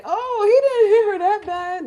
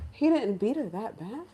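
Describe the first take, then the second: First: High, loud, dismissive imitation; mock defending. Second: Questioning echo at near-usual pitch; incredulous echo. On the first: In-laws defending a violent partner, mock-indignant excuse. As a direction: whine it loudly as a mocking excuse. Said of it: "You don't defend them and say". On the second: Retold or imitated. Teller reacting to the excuse about violence, incredulous. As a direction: repeat the excuse in measured disbelief. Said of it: "my jaws dropped".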